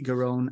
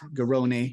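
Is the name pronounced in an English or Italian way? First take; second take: English; Italian. First: The name is pronounced the plain English way. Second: The name is pronounced the Italian way.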